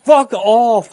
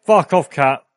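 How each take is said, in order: First: High loud startled yell; panicked scream. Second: Sudden startled curse at cat; startled yell. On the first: Another jump scare. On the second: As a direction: snap it out in alarm. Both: Real, not acted.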